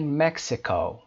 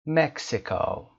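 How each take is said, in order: First: مکزیکو with the first syllable loud and high; stress on MEX. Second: مکزیکو said slowly, first syllable punched high; slow careful مکزیکو, stress on MEX; slow stressed model. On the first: (تأکید روی بخش اول مکزیکو) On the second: (تأکید آهسته روی بخش اول مکزیکو) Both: Shown as a demonstration.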